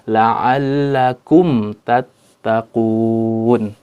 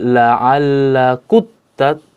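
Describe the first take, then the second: First: The m is pronounced clearly before the t. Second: The m merges fully into the following t. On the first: The speaker calls it right. "tapi dengan izhar, jelas, huruf mimnya harus jelas" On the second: The speaker calls it wrong. "tidak dibaca dengan uh, apa namanya, uh, idgham"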